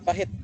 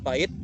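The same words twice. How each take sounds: First: The h sound is pronounced. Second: The h sound is left out. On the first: The speaker calls it right. "yang benar adalah" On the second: The speaker calls it wrong. "peninggalan fonem h. Yang salah"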